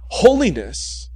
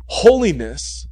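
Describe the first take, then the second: No difference in how they are said.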